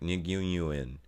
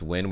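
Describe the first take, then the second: First: Every letter of the name is sounded out. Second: The name is one short syllable, like win. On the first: The speaker calls it wrong. "I would pronounce it like trying to say every letter" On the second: The speaker calls it right. "it's definitely pronounced win"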